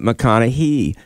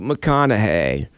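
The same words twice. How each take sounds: First: The name ends with a long E sound. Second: The name ends without a long E sound. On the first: The speaker calls it wrong. "pronounce it with a long E at the end" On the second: The speaker calls it right. "That is the correct pronunciation"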